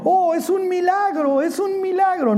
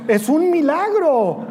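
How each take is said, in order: First: Much higher, slowed, hammed-up naive voice; preacher mocking Aaron's miracle excuse. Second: High, slow, put-on voice of the excuse-making priest; Aaron feigning amazement at his calf; mock Aaron. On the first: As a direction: play the innocent who swears it appeared by itself. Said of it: "Y Aarón diciendo". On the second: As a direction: ham up a fake-innocent miracle cry.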